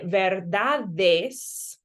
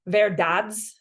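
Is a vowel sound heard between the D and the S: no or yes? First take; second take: yes; no. First: A short vowel separates the D from the S. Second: The D runs straight into the S, flat. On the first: The speaker calls it right. "I'm giving a little push or a little buffer between my D and my S" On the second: The speaker calls it wrong. "it just sounds very flat and choppy and American"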